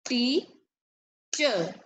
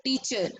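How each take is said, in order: First: "Teacher" split into two beats with a long pause between; syllable by syllable. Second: Said in the usual way. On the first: Shown as a demonstration. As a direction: say "Teacher" as tea, pause, cher, for clapping. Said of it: "As I'm saying the word, you clap the beat". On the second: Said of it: "come to the next word".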